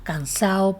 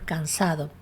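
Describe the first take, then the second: First: The d between vowels is weakened or lost. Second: The d between vowels is clearly pronounced.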